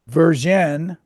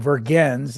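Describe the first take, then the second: First: The name is pronounced with French sounds. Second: The name is pronounced with English sounds. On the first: "I'm going to use the French pronunciation" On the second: "in English"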